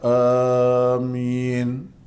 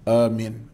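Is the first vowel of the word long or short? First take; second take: long; short. First: The first vowel is drawn out long. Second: The first vowel is said short. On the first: "a tu panjang sikit" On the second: "ringkas, pendek bacaan"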